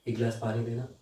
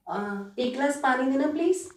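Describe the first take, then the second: First: The voice is at a medium pitch. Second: The voice is light and high.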